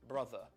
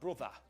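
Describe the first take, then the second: First: It is said in a standard British accent. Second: It is said in a Geordie Newcastle accent.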